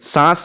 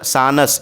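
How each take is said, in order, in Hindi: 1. 'न' सिर्फ़ नासिक्य स्वर का रंग है। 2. 'न' को पूरे व्यंजन की तरह बोला जाता है। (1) "उसमें गुन्ना हो रहा है" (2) "इस तरीके से नहीं पढ़ा जा रहा है"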